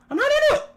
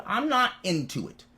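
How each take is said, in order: First: Very high, loud screech; screamed refusal. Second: Said in the usual way. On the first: Real, not acted. Screamed repeat of same words.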